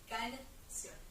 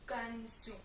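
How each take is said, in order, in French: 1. Les voyelles sont orales avec un n bien net. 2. Les voyelles sont nasalisées, à la française. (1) "voilà, canción" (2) "pas canción ou canción ou canción"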